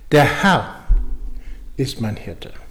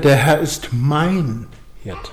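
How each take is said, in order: First: The stress falls on the word Herr. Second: The stress falls on the word mein. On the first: The focus is on who the Lord is. "Also es geht um den Herrn" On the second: The focus is on a personal relationship. "dass er mein Herr ist"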